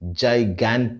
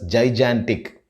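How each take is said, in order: First: The middle syllable does not sound like 'jan'. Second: The middle syllable sounds like 'jan'. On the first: The speaker calls it right. "But the right pronunciation of this word is gigantic" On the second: The speaker calls it wrong. "Most of us tend to pronounce this word as gigantic. We pronounce the middle syllable as Jan, as in January"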